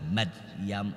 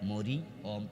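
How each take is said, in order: First: The r carries no vowel of its own. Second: The r is followed by an i vowel. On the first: The speaker calls it right. "আরবিতে উচ্চারণ হলো রয়ের উপরে সাকিন" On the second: The speaker calls it wrong. "আমরা দিছি জের"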